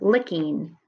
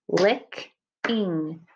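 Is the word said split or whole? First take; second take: whole; split. First: The word is said in one piece. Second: The word is broken into two parts.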